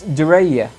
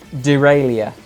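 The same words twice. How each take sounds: First: The word is pronounced in a French-sounding way. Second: The word is pronounced in an English-sounding way. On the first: The speaker calls it right. "It's derailla" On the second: The speaker calls it wrong. "not derailla"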